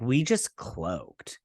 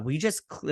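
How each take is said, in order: First: We just cloaked drawn out slow and low; stunned slow We just cloaked; slow, low quote. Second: Said in the usual way. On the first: Retold or imitated. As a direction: let We just cloaked sink slowly. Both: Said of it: "and she's like".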